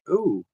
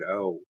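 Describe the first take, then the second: First: It is said in a higher, lighter voice. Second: It is said in a deep, manly voice. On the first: Someone else said it that way. "I think he said" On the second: The speaker claims he said it that way. "in a very deep and manly voice"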